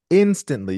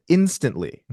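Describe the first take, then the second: First: "instantly" said higher and louder, falling hard; "instantly" punched high and loud with a sharp fall; emphatic repeat. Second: Said in the usual way. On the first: Real, not acted. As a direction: push "instantly" up and out the second time.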